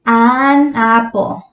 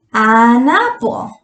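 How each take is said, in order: First: "an apple" drawn out slowly, each word clear; slow model of "an apple". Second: "An apple" again slow, rising on "apple"; slow repeat. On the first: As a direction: spell out "an apple" for the class. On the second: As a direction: say "An apple" as a gentle check. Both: Shown as a demonstration. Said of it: "entonces usamos".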